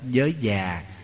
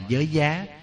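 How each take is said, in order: First: The second word has a low falling tone. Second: The second word has a high rising tone. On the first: The speaker calls it right. "nhưng đúng là chúng ta đọc là già" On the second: The speaker calls it wrong. "chúng ta hay còn gọi là giới giá"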